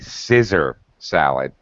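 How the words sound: The first word sounds like 'scissor'. "Here in the Philippines, they say scissor salad"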